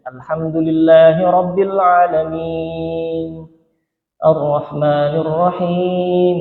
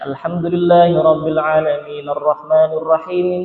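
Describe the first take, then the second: First: There is a pause between the two verses. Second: The two verses run together without a pause. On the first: The speaker calls it right. "Yuqatta' qira'atahu ayatan ayatan, memotong ayat demi ayat" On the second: The speaker calls it wrong. "Jadi tidak membaca misalnya"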